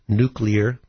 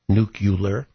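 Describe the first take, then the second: First: The word is pronounced as nuclear. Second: The word is pronounced as nucular. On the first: The speaker calls it right. "Please learn to say nuclear" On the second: The speaker calls it wrong. "instead of nuclear"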